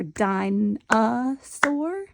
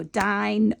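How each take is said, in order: First: Dinosaur slowed down, every syllable stretched, rising at the end; careful stretched dinosaur; drawn-out dinosaur. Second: Dinosaur said quickly, syllables run together. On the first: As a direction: pull dinosaur out slowly, syllable by syllable. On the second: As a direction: rush through dinosaur at speech speed. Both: Shown as a demonstration. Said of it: "pronounce it all a little bit differently".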